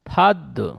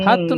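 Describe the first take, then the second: First: The syllable ends in a bouncing d sound. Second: The syllable ends in a plain t sound. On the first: The speaker calls it right. "দাল রয়েছে। ফাদ।" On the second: The speaker calls it wrong. "ফাত নয়, ফাত হয়ে যাচ্ছে, তা হয়ে যাচ্ছে"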